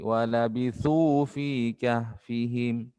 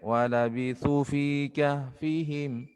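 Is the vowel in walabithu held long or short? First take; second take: long; short. First: The vowel in walabithu is held long. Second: The vowel in walabithu is cut short. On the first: The speaker calls it right. "panjangkan dua harokat" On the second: The speaker calls it wrong. "jangan dibaca pendek"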